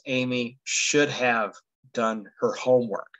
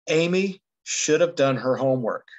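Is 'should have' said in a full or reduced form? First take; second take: full; reduced. First: 'Should have' is said in its full form. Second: 'Should have' is reduced and run together. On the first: This is standard, formal English. The speaker calls it right. "the correct standard English is" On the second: This is casual, informal speech. The speaker calls it wrong. "Sort of just thinking about the way it sounds"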